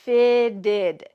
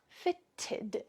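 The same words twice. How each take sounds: First: The middle consonants sound like a soft D. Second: The middle consonants sound like a crisp T. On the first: The speaker calls it right. "those T's are going to sound like D's in American English" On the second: The speaker calls it wrong.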